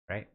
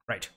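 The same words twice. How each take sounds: First: The pitch rises at the end. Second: The pitch falls at the end. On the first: The speaker calls it wrong. "Not right" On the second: The speaker calls it right. "No upwards inflection"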